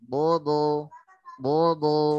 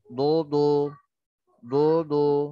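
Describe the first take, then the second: First: The lips are not pushed forward or rounded. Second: The lips are pushed forward and rounded. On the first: The speaker calls it right. "Beda dengan" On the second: The speaker calls it wrong. "Kalau dimonyongkan nanti suaranya berbeda. Seperti ini contoh misalkan"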